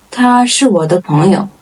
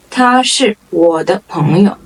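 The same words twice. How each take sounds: First: Said in the usual way. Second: Word-by-word teaching pace. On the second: Shown as a demonstration. Model sentence, slower first take.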